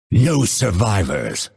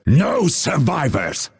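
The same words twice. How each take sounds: First: Grim vow at ordinary pitch; restrained take of a battle line; grim battle order. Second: Higher-pitched battle order; rousing, raised-pitch war cry. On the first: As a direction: pronounce the sentence on the enemy. Battle cry, first take. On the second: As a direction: call it out to the fight, pitched up. Battle cry, second take. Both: Acted.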